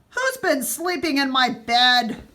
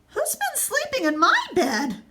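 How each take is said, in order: First: It is growled in Daddy Bear's deep voice. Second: It is gasped in Mommy Bear's breathy voice.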